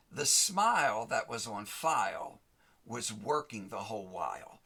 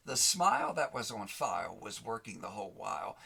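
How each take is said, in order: First: "smile" punched louder, with a pause before "was working the whole while"; stress on smile. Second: Said in the usual way. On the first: Shown as a demonstration. Preacher driving home "smile" to the audience, emphatic. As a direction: lean hard on "smile", then let the rest land.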